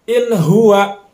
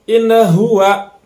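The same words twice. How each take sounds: First: The n sound is plain and clear. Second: The n sound is bounced with an echo. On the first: The speaker calls it right. "Nunnya jelas" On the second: The speaker calls it wrong. "Jangan sampai tadi dipantulkan"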